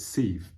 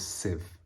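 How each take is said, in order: First: The word is said as its spelling suggests. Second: The word is said with its standard pronunciation. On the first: The speaker calls it wrong. "It looks like it's sieve" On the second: The speaker calls it right. "but it's a sieve"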